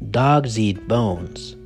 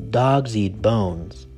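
Both takes have the same delivery.

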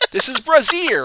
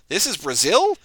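First: It falls at the end like a statement. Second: It rises at the end like a question.

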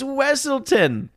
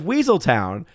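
First: The name begins with a short wessel sound. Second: The name begins with the word weasel. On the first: The speaker calls it right. "it's Wesselton" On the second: The speaker calls it wrong. "constantly mispronouncing his name"

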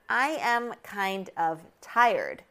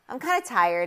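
First: Each word is said separately and clearly. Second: The words are reduced and linked together. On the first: The speaker calls it wrong. "I'm saying it like this so that you can really hear what words are in this question" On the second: The speaker calls it right. "with the connected speech and the linking"

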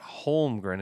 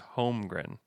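First: The L sound is pronounced in the name. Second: The L sound is silent in the name. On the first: The speaker calls it wrong. "it's not Holmgren" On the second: The speaker calls it right. "Stay away from the L"

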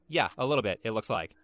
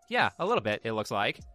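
First: It is said in an unimpressed, sarcastic tone. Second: It is said in a warm, positive tone.

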